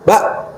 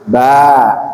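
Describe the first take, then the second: First: The vowel ends abruptly in a glottal stop. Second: The vowel is long with no glottal stop. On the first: The speaker calls it wrong. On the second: The speaker calls it right.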